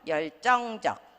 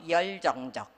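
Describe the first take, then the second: First: Tensed second consonant, and the following vowel stays high. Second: Plain second consonant, and the pitch keeps falling. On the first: The speaker calls it right. "경음화가 돼서 정이 들어가 있죠" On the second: The speaker calls it wrong. "경음화를 시키지 않고 열정적 하면은 소리가 자꾸 내려와요"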